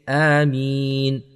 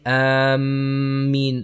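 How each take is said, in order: First: The m sound is single and short. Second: The m sound is doubled and held. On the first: The speaker calls it right. "the meem has a kasra, and that is it. So we say" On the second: The speaker calls it wrong. "the meem should not have a shadda on it. We do not say Ameen"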